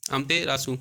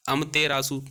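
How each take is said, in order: Both takes have the same delivery.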